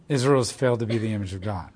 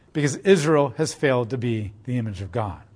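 First: Softer, lower, quicker repeat of the same line; quiet repeat. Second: Said in the usual way. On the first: Real, not acted. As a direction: let it sink in, dropping the voice. Preacher repeats the point for emphasis.

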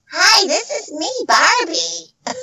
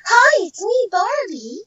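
First: Mocking copycat doll voice; off-target doll impression, high and put-on; imitation Barbie. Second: High, cheerful doll greeting; perky toy-doll hello, pitched well up; Barbie's voice. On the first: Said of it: "girls trying to sound like me". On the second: Shown as a demonstration. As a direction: lift it into a sweet, high doll voice. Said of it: "which was me".

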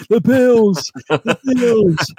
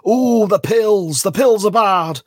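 First: Hunchback of Notre Dame. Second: High, loud, slow hunchback wail; Hunchback of Notre Dame. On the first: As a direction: wail it like a hunchback. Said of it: "You sound like the Hunchback of Notre Dame". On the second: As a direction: moan it like a hunchback. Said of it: "You sound like the Hunchback of Notre Dame then". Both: Retold or imitated.

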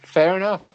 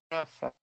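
First: Higher and louder, a bright agreeing "Fair enough"; a cheerful, louder "Fair enough"; upbeat fair enough. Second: Much softer, falling "Fair enough" under the breath; murmured afterthought "Fair enough"; soft repeat. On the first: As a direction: toss out "Fair enough" with a lift and punch. Host reacts to guest's picks. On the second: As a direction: let "Fair enough" drop away quietly. Host repeats it as a letdown. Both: Real, not acted.

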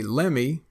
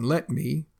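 First: Lemme, let me fused into one word; slow drawled lemme; Texan lemme. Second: Said in the usual way. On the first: Shown as a demonstration. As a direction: say lemme loose and casual. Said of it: "We say lemme". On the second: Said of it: "instead of saying let me".

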